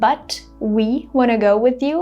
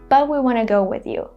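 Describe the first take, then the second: First: The T in 'but' is released with air. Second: The T in 'but' is held with no air. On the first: "Instead of saying" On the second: "in America, people will say"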